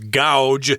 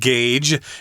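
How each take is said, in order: First: The vowel sounds like 'ow'. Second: The vowel sounds like 'ay'. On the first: The speaker calls it wrong. "my wife always mispronounces this word. She says gouge because A U, isn't that ow?" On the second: The speaker calls it right. "We pronounce it gauge"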